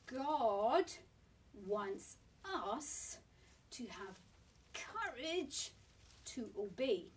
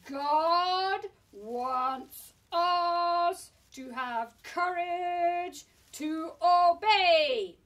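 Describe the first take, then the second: First: It is said at a normal volume. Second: It is said loudly in a big voice.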